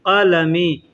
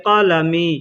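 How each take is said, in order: No difference in how they are said.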